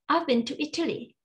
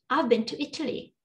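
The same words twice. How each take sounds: Both takes have the same delivery.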